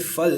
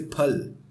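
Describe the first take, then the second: First: The word starts with an f sound. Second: The word starts with a breathy p sound. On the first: The speaker calls it wrong. "you don't say fal" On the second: The speaker calls it right. "you say phal"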